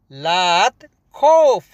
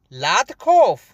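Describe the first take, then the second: First: "लात खौफ" said slowly with a falling "खौफ"; slow, firm repeat. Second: Said in the usual way. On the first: Shown as a demonstration. Teacher repeating "don't fear" slowly for students.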